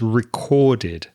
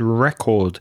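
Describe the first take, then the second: First: The word ends with an extra id syllable. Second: The word ends without an extra id syllable. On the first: The speaker calls it right. "make sure you pronounce the ed as id" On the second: The speaker calls it wrong. "And you said record"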